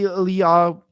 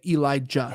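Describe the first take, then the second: First: The middle consonant is a Y sound. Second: The middle consonant is a hard J sound. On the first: This is the more Hebrew form of the name. "to be more Hebrew" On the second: This is the English form of the name. "It's with a hard J"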